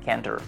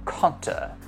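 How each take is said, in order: First: It is said in an American accent. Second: It is said in a British accent.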